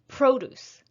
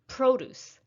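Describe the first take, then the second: First: The stress is on the first syllable. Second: The stress is on the first syllable.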